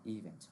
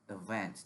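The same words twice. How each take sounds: First: The stress is on the first syllable. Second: The stress is on the second syllable. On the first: The speaker calls it wrong. "not event" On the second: The speaker calls it right. "that word needs to be pronounced event"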